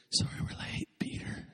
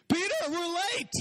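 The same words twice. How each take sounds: First: Soft unvoiced whisper, unhurried; hushed and easy, no stress at all; calm whisper. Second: Frantic high-pitched panic, much higher; hurried, panicked Jesus running late; stressed Jesus. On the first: Jesus calmly apologizing to the group for being late, whispered. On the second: Retold or imitated. Jesus panicking at Peter about being late, frantic and high.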